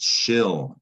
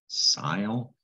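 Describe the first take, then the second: First: It begins with sh and rhymes with hill. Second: It begins with s and rhymes with mile. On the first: The speaker calls it right. "It's pronounced shill in English" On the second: The speaker calls it wrong. "It looks like it should be pronounced sile"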